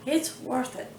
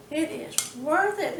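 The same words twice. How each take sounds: First: Said in the usual way. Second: Slower, leaning on "worth" with a falling finish; insisting emphasis. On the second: Real, not acted. Home cook assures viewers the effort pays off, slow firm stress. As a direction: drive home that it's "worth" it.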